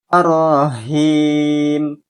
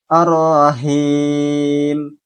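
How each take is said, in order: No difference in how they are said.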